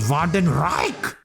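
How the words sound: It is said in an exaggerated German accent.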